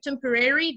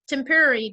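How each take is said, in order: First: It is said in an American accent. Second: It is said in a British accent. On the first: "this is American" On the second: "this is uh, British"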